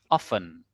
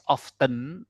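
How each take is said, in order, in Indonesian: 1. Bunyi t dihilangkan dan senyap. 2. Bunyi t jelas diucapkan. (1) "T-nya luluh ya ... di drop gitu" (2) "jangan bacanya"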